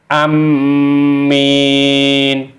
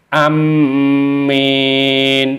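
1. Bunyi m ganda dan ditahan. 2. Bunyi m ganda dan ditahan.

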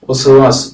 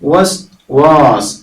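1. ഈ രണ്ട് അക്ഷരങ്ങളും അയഞ്ഞ് ഒന്നിച്ചാണ് ഉച്ചരിക്കുന്നത്. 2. ഈ രണ്ട് അക്ഷരങ്ങളും വ്യക്തമായി വേർതിരിച്ചാണ് ഉച്ചരിക്കുന്നത്. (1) "സാധാരണ നമ്മൾ വസ്വാസ് എന്ന് പറഞ്ഞ് ശീലിച്ചിട്ടുണ്ടാവും" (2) "ചടുലമായിട്ട് വായിക്കാൻ ശ്രദ്ധിക്കണം"

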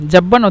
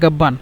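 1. শব্দটি J দিয়ে শুরু হয়। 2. শব্দটি শক্ত G দিয়ে শুরু হয়। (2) "মিশরীরা জাব্বান বলে অথবা গাব্বান বলে"

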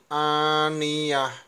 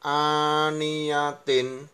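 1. Kata ini berakhir dengan bunyi h yang senyap. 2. Kata ini berakhir dengan bunyi -tin penuh.

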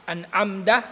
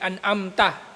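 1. Ang huling pantig ay nagsisimula sa tunog na d. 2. Ang huling pantig ay nagsisimula sa tunog na t. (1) "Mali yun" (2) "Hindi an'amta"

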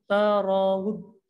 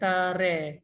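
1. Bunyi r diucapkan berat dan penuh. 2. Bunyi r diucapkan ringan dan tipis. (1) "Sebab ra kat sini dibaca tebal" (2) "bukan tare"

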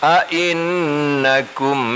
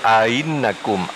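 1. Kedua hamzah dilafalkan penuh dan jelas. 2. Hamzah kedua dilemahkan, tidak dilafalkan penuh. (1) "bitahqiqil hamzataini"

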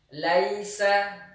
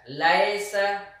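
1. Suku kata pertama memiliki diftong 'ai'. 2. Suku kata pertama memiliki vokal 'e' biasa.

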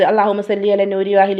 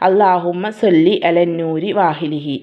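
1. ഇത് വേഗത്തിൽ ചൊല്ലുന്നു, അവസാന അക്ഷരം മുറിഞ്ഞുപോകുന്നു. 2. ഇത് സാവധാനത്തിൽ ചൊല്ലുന്നു, ഓരോ അക്ഷരവും വ്യക്തമായി ഉച്ചരിക്കുന്നു. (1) "അങ്ങനെ ചെല്ലരുത്" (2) "നല്ല അക്ഷരം"

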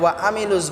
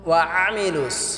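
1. প্রথম স্বরবর্ণটি সাধারণ, গলায় চাপ ছাড়া। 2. প্রথম স্বরবর্ণটি গলা থেকে চাপ দিয়ে উচ্চারিত। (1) "এখানে ওয়া আমিলুস বললে হবে না" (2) "আইনটাকে আমরা গলায় চাপ দিয়ে উচ্চারণ করবো"

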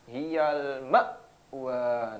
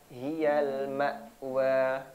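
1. Hamzah-nya dihentak terlalu keras. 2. Hamzah-nya ringan dan halus.

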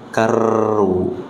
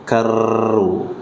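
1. R bertasydid dibaca dengan getaran yang mantul. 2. R bertasydid dibaca dengan getaran yang mantul.

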